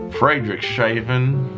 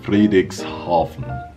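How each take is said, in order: First: The word is pronounced in a mangled, anglicized way. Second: The word is pronounced carefully, close to German. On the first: The speaker calls it wrong. "I've heard people say" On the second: The speaker calls it right. "I think I come pretty close"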